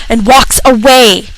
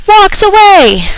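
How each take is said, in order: First: Said in the usual way. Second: High, slow outraged repeat; incredulous. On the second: Real, not acted. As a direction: say it in disbelief, drawn out. Repeated louder.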